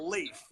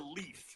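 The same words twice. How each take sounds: First: The vowel is a long 'ay' sound. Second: The vowel is a long 'ee' sound. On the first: The speaker calls it right. "that is pronounced A, a hard A sound" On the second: The speaker calls it wrong. "not Tor Leaf"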